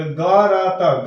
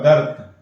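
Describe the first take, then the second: First: गरत drawn out very slowly as ga-ra-ta, each letter apart; slow letter-by-letter reading; sounded out slowly. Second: गर्त said as one word, गर्त with the r and t fused; joined correct word. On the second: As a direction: blend it into गर्त, quick and whole. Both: Shown as a demonstration. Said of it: "यदि हम ग उच्चारण करते हैं".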